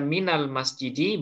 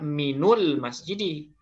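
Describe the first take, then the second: First: The vowel after min is a. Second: The vowel after min is u. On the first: The speaker calls it right. "boleh fathah" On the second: The speaker calls it wrong. "tidak bisa dibaca"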